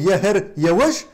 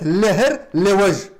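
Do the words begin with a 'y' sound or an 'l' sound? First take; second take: y sound; l sound. First: The words begin with a 'y' sound. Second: The words begin with an 'l' sound. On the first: This is the speaker's own dialect form. "Как мы говорим" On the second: This is the form used in another dialect. "они говорят"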